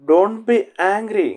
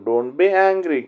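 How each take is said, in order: First: Each word drawn out slowly for learners; a teacher modelling the phrase slowly for the class; slow model reading. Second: Said in the usual way. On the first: Shown as a demonstration. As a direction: say it slowly so students can follow. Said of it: "teacher repeats phrase slowly". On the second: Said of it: "teacher repeats phrase at normal pace".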